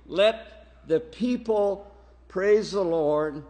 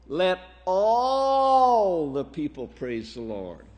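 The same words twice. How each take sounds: First: Said in the usual way. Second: "all" held long in a rising swell; stress on ALL. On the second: Shown as a demonstration. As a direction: draw out "all" emphatically, then settle down for the rest. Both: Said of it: "did you hear my emphasis on the word all".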